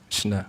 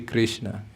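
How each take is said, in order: First: The name is shortened with sounds chopped off. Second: Every sound of the name is pronounced fully. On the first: The speaker calls it wrong. "We are shortening the, his name, we are literally chopping it up" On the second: The speaker calls it right. "we pronounce everything. We say Krishna"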